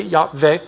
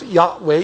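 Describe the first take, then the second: First: "Yahweh" said as "Yahveh", v for w; pronounced with V. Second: "Yahweh" with a w sound in the second syllable; pronounced with W. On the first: Teacher giving the other reading of the name, "Yahweh" with a v. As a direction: say "Yahweh" with a v, ending in "vay". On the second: Teacher reading out the Hebrew name for the class, "Yahweh" with a w. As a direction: say "Yahweh" ending in "way". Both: Shown as a demonstration.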